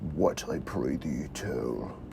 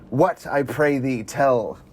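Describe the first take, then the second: First: It is said in a put-on deep voice. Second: It is said in a normal voice.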